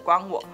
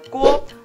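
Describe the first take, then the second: First: Two separate syllables are said at normal speed. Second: The syllables are said fast and merge into one. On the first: "是关我什么事的关我" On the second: "试着把它念快一点，……就会变成了锅"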